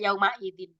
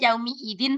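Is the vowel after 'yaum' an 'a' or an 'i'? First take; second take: a; i. First: The vowel after yaum is an a. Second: The vowel after yaum is an i. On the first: The speaker calls it wrong. "pada dibaca yauma idin" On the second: The speaker calls it right. "harusnya yaumi idin"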